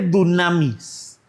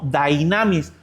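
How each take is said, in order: First: The first vowel is an 'oo' sound. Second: The first vowel is an 'ee' sound. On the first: The speaker calls it wrong. "hay quien le dice dunamis" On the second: The speaker calls it right. "debe ser mejor conocido como dynamis o dinamis"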